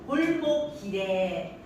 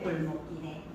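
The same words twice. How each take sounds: First: The long vowel is heavily stretched out. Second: The long vowel is only slightly lengthened. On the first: The speaker calls it wrong. "하지 말고" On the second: The speaker calls it right. "그냥 약간 장음이 들어가집니다"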